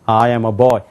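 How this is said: It is said with an American-style accent. The speaker calls it right. "이상하게 미국 사람처럼 발음을 해버려요"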